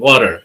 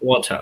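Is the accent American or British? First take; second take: American; British. First: American accent, with a strong r sound. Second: British accent, with a strong t sound. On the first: "an American will say water, ... The R will be rolling your tongue" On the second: "a British will say water, a very strong ta"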